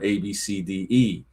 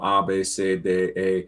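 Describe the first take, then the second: First: The letters have English names; E sounds like ee. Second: The letters have German names; E sounds like ay. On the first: "it's different from A B C D E" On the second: "I learned the German alphabet"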